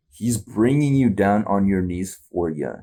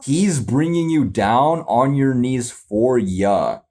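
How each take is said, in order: First: Said in the usual way. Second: Slow puzzled lyric read. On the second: Shown as a demonstration. Reacting to the song, slowly sounding out the lyric.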